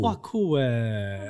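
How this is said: It is said in a flat, perfunctory tone.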